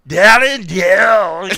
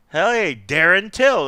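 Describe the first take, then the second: First: Darren Till very slow, louder, slurred in a mock Irish accent; drunken mock Irish slur on Darren Till; slurred Irish-ish accent. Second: Said in the usual way. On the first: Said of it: "Because you did it in an accent". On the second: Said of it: "it wasn't even like you were just, like, saying".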